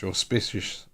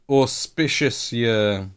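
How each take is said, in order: First: Said in the usual way. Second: Auspicious stretched slowly; drawn-out word. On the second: Shown as a demonstration. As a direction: savour each syllable of auspicious. Tries the word twice.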